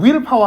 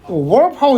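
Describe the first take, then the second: First: The first part is a plain, unrolled 'will'. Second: The first part is a rolled 'whirl' sound. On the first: The speaker calls it right. "굴리지 마세요. 그냥 윌 파워 하세요" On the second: The speaker calls it wrong. "이런 식으로 발음하지 마"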